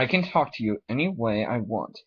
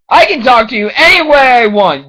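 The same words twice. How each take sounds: First: It is said at a calm volume. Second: It is yelled loudly.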